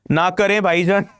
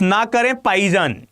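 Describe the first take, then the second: First: Put-on quick Pakistani accent line. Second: ना करें पाईजान with the Pakistani p for bh, quick; Pakistani accent. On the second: Retold or imitated. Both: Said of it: "in their Pakistani accent".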